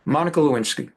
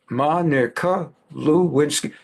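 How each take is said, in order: First: Said in the usual way. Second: Monica Lewinsky said slowly, every syllable deliberate; drawn-out Monica Lewinsky, falling at the end; slow, weighted name. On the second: Shown as a demonstration. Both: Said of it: "I'm gonna say a name".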